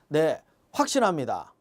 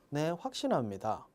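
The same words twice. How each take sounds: First: It is said firmly with strong emphasis. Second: It is said flatly without emphasis. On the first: The speaker is truly convinced. The speaker calls it right. "이게 맞죠?" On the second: The speaker does not sound convinced. The speaker calls it wrong. "이건 아니잖아요"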